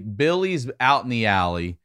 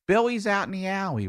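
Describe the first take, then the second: First: It is said in a plain, neutral accent. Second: It is said in a Baltimore accent. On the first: "if I'm gonna say" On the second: "I'll say that in a Baltimore accent"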